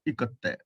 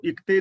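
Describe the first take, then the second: First: ਇਕੱਤੇ with a doubled, held k; correct reading. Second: ਇਕਤੇ said with a short plain k, no doubling; the wrong way, ਇਕਤੇ with a light single k; wrong reading. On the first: Teacher gives students the right reading ਇਕੱਤੇ. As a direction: lean on the geminate k in ਇਕੱਤੇ. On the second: Teacher shows students the wrong reading ਇਕਤੇ. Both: Shown as a demonstration. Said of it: "ਇਹਨੂੰ ਇਕਤੇ ਨਹੀਂ ਪੜ੍ਹਨਾ".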